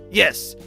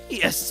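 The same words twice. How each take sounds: First: It is said in a clear, confident voice. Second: It is said in a croaky, hoarse voice.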